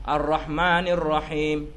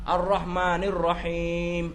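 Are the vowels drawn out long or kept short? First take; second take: short; long. First: The vowels are kept short. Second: The vowels are drawn out long. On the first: "Pendek ah tu" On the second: "panjang juga"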